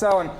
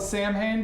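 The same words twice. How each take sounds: First: It is said with the Gaelic pronunciation. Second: Each letter is sounded out as it looks. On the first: The speaker calls it right. "but actually it's pronounced Samhain" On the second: The speaker calls it wrong. "It looks like it's spelled Samhain"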